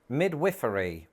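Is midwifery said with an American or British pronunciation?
British. It is said with a British pronunciation. "in Britain we say midwifery"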